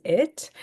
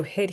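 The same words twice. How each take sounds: First: Said in the usual way. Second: "hit" with a sounded h at the start; aspirated old form. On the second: Shown as a demonstration. Teacher glosses a word in the poem, aspirated pronunciation. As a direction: breathe the h onto "hit". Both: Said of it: "We just lose that aspiration".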